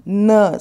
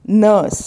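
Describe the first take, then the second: Both takes have the same delivery.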